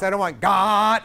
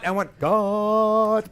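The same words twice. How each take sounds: First: "God" sung heavy and slow, the note sagging; hammed-up flat "God", pushed slow; wrong god. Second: "God" sung slow, light and pointed like an arrow; right god. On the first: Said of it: "I don't want this". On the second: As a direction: aim "God" straight and light, held steady. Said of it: "like an arrow". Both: Shown as a demonstration.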